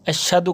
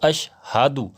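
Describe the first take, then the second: First: The h sound in the middle is dropped. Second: The h sound in the middle is kept. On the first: The speaker calls it wrong. "हा को बीच में छोड़ देते हैं" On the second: The speaker calls it right. "तो अशहादु"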